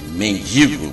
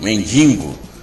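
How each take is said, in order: First: The word has no nasal sound before the g. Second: The word has an extra nasal sound before the g.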